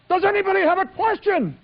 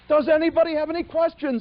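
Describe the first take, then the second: First: It sounds intense and strained. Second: It sounds relaxed and smiling.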